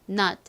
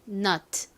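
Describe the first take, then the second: First: Said fast with the final t unreleased. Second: Said slowly with the final t released. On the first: "빠르게 발음하면 t가 받침처럼 들어와서" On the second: "천천히 발음하면 nut 이렇게 소리가 나지만"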